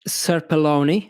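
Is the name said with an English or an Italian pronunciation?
English. The name is said with an English pronunciation. "In English, it's pronounced"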